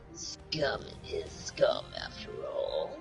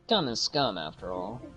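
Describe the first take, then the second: First: It is said in a Broly impression. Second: It is said in his normal voice.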